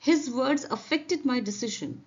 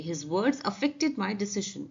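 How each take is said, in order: First: Very slow, each word spaced out; slow, careful classroom reading; slow dictation read. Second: Very slow, deliberate reread; slow careful model sentence; slow repeat. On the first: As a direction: read it slowly for learners. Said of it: "teacher reads example slowly". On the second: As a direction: spell out every word slowly for the class. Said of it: "teacher rereads example". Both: Shown as a demonstration.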